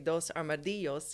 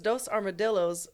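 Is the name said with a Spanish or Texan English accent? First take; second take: Spanish; Texan English. First: It is said with a Spanish pronunciation throughout. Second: It is said with a Texan English pronunciation.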